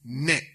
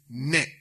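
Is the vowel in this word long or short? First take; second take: short; short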